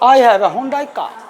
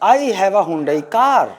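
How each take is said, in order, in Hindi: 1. car का अंतिम r silent है। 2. car का अंतिम r बोला जाता है। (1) "इसका उच्चारण है का" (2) "गलत उच्चारण करते आए ना"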